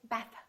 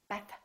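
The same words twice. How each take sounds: First: The tongue pulls back, clipping the final th. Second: The tongue pulls back, clipping the final th.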